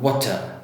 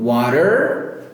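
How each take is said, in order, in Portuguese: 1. O R final é omitido. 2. O R final é claramente pronunciado. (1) "O britânico já vem e corta e fala" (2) "O americano tem bem forte"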